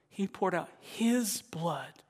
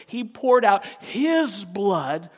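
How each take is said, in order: First: Said in the usual way. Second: Loud, high, slow cry; impassioned sermon shout; loud preaching. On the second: Acted. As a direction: shout it from the pulpit.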